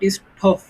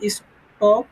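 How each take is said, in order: First: The t is said with a puff of air. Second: The t is said without a puff of air. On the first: The speaker calls it wrong. "Not স্টপ" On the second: The speaker calls it right. "এটা হচ্ছে নন spirited এজন্য S এই স্টপের উচ্চারণ হবে স্টপ"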